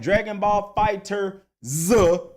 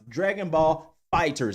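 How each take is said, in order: First: The last word ends with a separate letter Z. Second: The last word ends in a plain s sound. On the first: The speaker calls it wrong. "not Dragon Ball Fighter Z" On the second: The speaker calls it right. "it is pronounced Dragon Ball Fighters"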